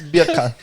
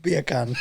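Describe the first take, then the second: First: Put-on "Beer can" in a light Jamaican accent. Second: Mock Jamaican "Beer can", bacon-like; Jamaican accent. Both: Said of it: "in Jamaican".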